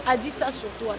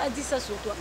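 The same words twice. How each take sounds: The two takes are said the same way.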